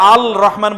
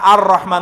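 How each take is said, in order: First: The L sound is clearly pronounced before rahman. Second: The L merges into a doubled R sound. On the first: The speaker calls it wrong. "আল রহমান বলবেন না" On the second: The speaker calls it right. "আর রহমান বলেন"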